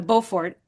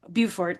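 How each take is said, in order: First: The name is pronounced the French way. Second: The name is pronounced the English way. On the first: "if you pronounce it in French"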